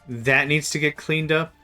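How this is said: The voice rises at the end like a question.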